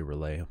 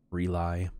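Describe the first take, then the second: First: "Relay" said as ruh-LAY; preferred pronunciation. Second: "Relay" said as ree-LIE; variant pronunciation. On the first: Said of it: "I say Relay". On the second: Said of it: "Everybody pronounces it differently". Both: Shown as a demonstration.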